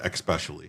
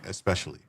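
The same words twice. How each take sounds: First: It starts with an x sound, like ex. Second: It starts with a plain s, like es. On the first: The speaker calls it wrong. "I never said especially" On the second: The speaker calls it right. "there is no X in that word. I say especially"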